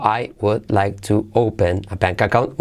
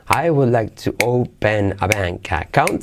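First: Separated words. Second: "I would like to open a bank account" run together smoothly; linked words, flowing. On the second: Teacher showing students linked pronunciation, smooth. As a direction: glide the words into one stream. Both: Shown as a demonstration.

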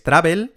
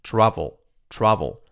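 First: "travel" said the Spanish way, /tɾabel/; "travel" with a Spanish b and a clear e; wrong travel. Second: "travel" with an English v and a reduced ending, /travol/; correct travel. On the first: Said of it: "no digáis travel". ("travel" a la española, /tɾabel/) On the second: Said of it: "es travel". ("travel" con v inglesa, /travol/) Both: Shown as a demonstration.

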